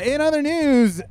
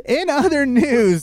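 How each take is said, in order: First: Slow anchor voice, drawn out; news anchor. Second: Slow, drawn-out anchor intro; news anchor. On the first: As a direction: intone it like TV news. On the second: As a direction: announce it like a newscaster. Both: Shown as a demonstration.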